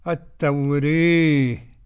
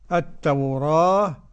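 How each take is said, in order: First: The vowel after r leans strongly toward e. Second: The vowel after r is an open a. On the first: "إمالة" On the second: "فتح"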